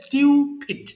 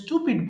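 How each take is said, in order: First: The first syllable is said 'styoo'. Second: The first syllable is said 'stoo'. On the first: The speaker calls it right. "সঠিক উচ্চারণ হবে স্টিউপিড" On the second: The speaker calls it wrong. "আমরা স্টুপিড বলি"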